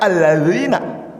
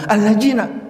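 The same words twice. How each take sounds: First: The consonant is a soft th-like dhal sound. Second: The consonant is a hard z-like or j-like sound. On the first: The speaker calls it right. "Harusnya dibaca" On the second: The speaker calls it wrong. "Ada orang yang nggak bisa menyebut zal, za, za, ja. ... Seperti apa dia baca?"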